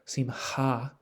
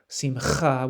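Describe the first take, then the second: First: The middle h sound is soft and breathy. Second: The middle h sound is very strong and rasping. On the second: "modern Israeli Hebrew pronounces it simcha, simcha, with a very strong het sound"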